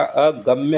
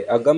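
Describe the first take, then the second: First: अगम्य as "a-gam-ya"; correct ya ending. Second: अगम as "a-gam"; wrong short ending. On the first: Teacher correcting it, अगम्य ending in "mya". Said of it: "अगम्य होता है". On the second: Teacher showing the error, अगम ending on "m". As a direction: stop अगम on m. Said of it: "अगम नहीं होता". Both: Shown as a demonstration.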